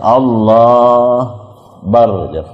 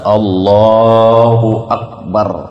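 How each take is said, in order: First: Sounds are dropped and the phrase is clipped. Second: Every sound of the phrase is said clearly. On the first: The speaker calls it wrong. "Jangan Allah bar" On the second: The speaker calls it right. "Harus jelas Allahu Akbar"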